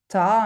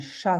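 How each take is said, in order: First: The word begins with a 't' sound. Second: The word begins with an 'sh' sound. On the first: The speaker calls it wrong. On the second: The speaker calls it right.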